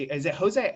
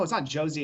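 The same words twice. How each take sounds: First: "Jose" with an H sound, "ho-ZAY"; Spanish J pronunciation. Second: "Jose" with an English J, like "JOE-zee"; English J pronunciation. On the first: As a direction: query "Jose" starting like hoe, louder. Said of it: "No, it's not Jose". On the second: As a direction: reject "Jose" said starting like Joe. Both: Shown as a demonstration.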